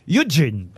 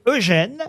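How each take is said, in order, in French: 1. Le nom se prononce à l'anglaise. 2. Le nom se prononce à la française. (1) "on devrait le lire Eugene" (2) "c'est vrai qu'on le lit Eugène"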